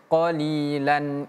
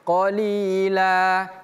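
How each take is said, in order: First: It ends in an n sound linked onward. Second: It ends on a long vowel with no n. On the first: The reading continues into the next word. "Tapi kalau kita sambung bacaannya" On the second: The reading stops after this word. "Kalau kita hentikan bacaannya"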